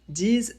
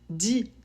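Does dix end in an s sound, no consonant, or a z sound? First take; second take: z sound; no consonant. First: The word ends with a z sound. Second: The word ends on the vowel, no final consonant. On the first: A word starting with a vowel follows. "s'il est suivi d'un mot qui commence par une voyelle pour faire la liaison" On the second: A word starting with a consonant follows. "s'il est suivi d'un mot qui commence par une consonne"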